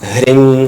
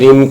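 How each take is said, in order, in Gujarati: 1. આ શબ્દ h અવાજથી શરૂ થાય છે. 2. આ શબ્દ h અવાજ વગર શરૂ થાય છે. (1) "એમ બોલાય" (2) "બધા બોલે છે એમ ... પણ એમ ના બોલાય"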